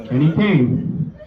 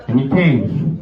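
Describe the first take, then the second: No difference in how they are said.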